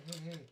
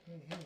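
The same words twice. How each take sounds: The two takes are said the same way.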